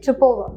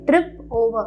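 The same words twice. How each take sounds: First: The two words run together smoothly. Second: The two words are said separately. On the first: The speaker calls it right. "we say trip over" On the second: The speaker calls it wrong. "we don't say trip over"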